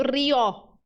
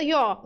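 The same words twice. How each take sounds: First: "rió" with rolled R and open stressed O; corrected rió. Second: "rió" with its opening R lost, like "yo"; wrong rió. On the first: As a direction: roll into "rió", opening the final O. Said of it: "Não, tá dizendo rió". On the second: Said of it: "Não tá dizendo". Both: Shown as a demonstration.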